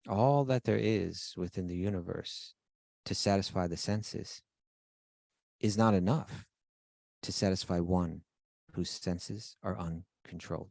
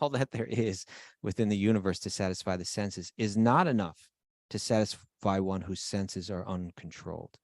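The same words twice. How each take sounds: First: It is said slowly, like a lecture. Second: It is said at a normal conversational pace.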